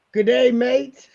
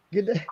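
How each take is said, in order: First: Mock Australian. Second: Said in the usual way.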